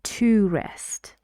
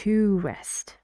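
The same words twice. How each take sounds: First: 'To' is stressed and said with a full vowel. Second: 'To' is stressed and said with a full vowel.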